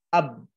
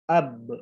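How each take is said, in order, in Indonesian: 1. Huruf b terakhir dihentikan secara datar tanpa pantulan. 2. Huruf b terakhir dilepaskan dengan pantulan yang bergema. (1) "bukan dibaca ab, harus dipantulkan" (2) "dibacanya memantul"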